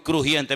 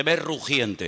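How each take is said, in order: First: The mistaken crujiente, with a hard kr and the j as a rasp; retold slip crujiente; wrong word crujiente. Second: The right word rugiente, with a rolled r, no k; corrected to rugiente. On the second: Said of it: "Crujiente como león rugi". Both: Shown as a demonstration.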